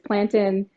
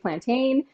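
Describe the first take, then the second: First: The A sound in the word is silent. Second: The A sound in the word is pronounced. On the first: This is how Jamaican families say it. "silent A all the way" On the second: This is how Latin Caribbean countries say it. "a lot of Latin Caribbean countries will say plantain"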